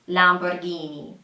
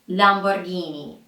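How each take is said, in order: Both takes have the same delivery.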